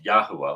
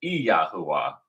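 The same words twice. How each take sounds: First: "Yahuwah" starting straight on Y, YAH-hoo-ah; English-style pronunciation. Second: "Yahuwah" with an opening ee, ee-YAH-hoo-ah; proper pronunciation. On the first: Teacher shows the English reading, "Yahuwah" as plain YAH-hoo-ah. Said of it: "not just Yahuwah, like we're in English". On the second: Teacher shows the proper name, "Yahuwah" as ee-YAH-hoo-ah. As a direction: start "Yahuwah" on a distinct ee before the yah. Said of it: "to actually be properly pronounced". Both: Shown as a demonstration.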